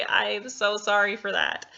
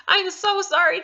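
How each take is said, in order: First: Said in the usual way. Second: High, loud apology through laughter; laughing apology. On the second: Real, not acted. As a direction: giggle out the sorry.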